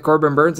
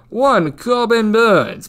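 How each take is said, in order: First: Said in the usual way. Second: Put-on slow, high old English accent on the name. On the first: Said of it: "the same should be said". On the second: Shown as a demonstration. To betting viewers, naming the pitcher in an old English accent. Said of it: "should be said in an old English accent".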